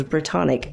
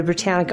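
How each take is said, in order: First: "Britannic" with an open ah in the middle; alternative pronunciation. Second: "Britannic" with a short a as in "tan"; corrected pronunciation. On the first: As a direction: say "Britannic" as bri-TAHN-ick. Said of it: "the Britannic Isles, Britannic". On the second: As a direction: say "Britannic" as bruh-TAN-ick. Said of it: "Britannic. Oh, sorry". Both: Retold or imitated.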